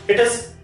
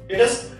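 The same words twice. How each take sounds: Both takes have the same delivery.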